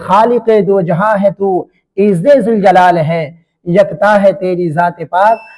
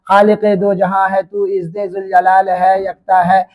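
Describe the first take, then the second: First: It pauses for breath after 'jalal hai'. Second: It runs on without pausing after 'jalal hai'.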